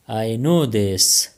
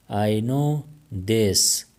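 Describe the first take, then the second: First: Each word drawn out slowly for learners; very slow, careful. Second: Said in the usual way. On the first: Shown as a demonstration. Teacher showing Pashto speakers the phrase, slow and deliberate. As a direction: say it slowly so they can follow. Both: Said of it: "teacher repeats the phrase twice".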